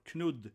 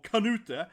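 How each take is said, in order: First: The name is said with a Danish pronunciation. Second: The name is said with an American pronunciation. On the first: "or Knud in Danish" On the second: "So everyone in America, ... or Kanute"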